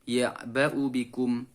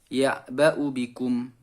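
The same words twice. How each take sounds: Both takes have the same delivery.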